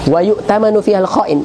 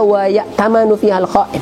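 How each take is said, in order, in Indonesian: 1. Kata kerjanya dimulai dengan bunyi 'yu'. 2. Kata kerjanya dimulai dengan bunyi 'ya'. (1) "kurang lebihnya kalau boleh saya baca" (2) "Ini dibaca wa ya'tamanu"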